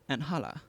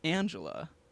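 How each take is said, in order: First: The middle consonant is an H sound. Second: The middle consonant is an English J sound. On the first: This is the name as used in the original Spanish version. "in the Spanish version" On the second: This is the name as used in the dubbed version. "in the dubbed version"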